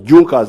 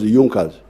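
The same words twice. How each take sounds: First: It is said the way it is spelled. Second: It is said the way it is pronounced. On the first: This is how the word looks in writing. "They are written as Junkers" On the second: This is how the word is actually pronounced. "but they are pronounced as Junkers"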